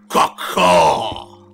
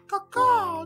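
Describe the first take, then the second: First: The call is harsh and angry. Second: The call is soft and polite. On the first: "This is an angry angel" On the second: "Let me just say politely"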